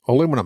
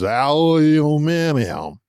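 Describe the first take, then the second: First: The word is short, quick and clipped. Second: The word is drawn out, with long, extra vowels. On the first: It sounds coherent and businesslike. The speaker calls it right. "Bam. I'm coherent" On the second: It sounds like slurring after a few drinks. The speaker calls it wrong. "Aluminium sounds like you're three drinks in and slurring your words"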